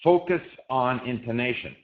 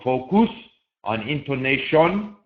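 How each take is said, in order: First: The unstressed syllables are reduced and weak. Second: Every syllable has a full, clear vowel. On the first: The speaker calls it right. "Notice that the U in focus is not pronounced" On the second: The speaker calls it wrong. "in most languages, they would go"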